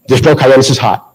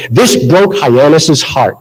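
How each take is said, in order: First: Said in the usual way. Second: Slow, drawn-out Boston delivery of a stage line; deliberate Boston-accented line. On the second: Acted. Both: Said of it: "it had my Boston accent".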